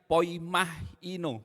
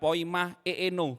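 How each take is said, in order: First: The word ends with a joined 'hee-no' sound. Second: The word ends with a separate 'ee-no' sound. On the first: The speaker calls it right. "Ini bacanya poimahino" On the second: The speaker calls it wrong. "ini bukan poima eeno"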